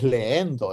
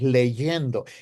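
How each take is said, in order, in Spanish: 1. Las dos vocales se juntan sin sonido 'y'. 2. Un sonido 'y' separa las dos vocales. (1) "de leer no es leendo" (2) "es leyendo"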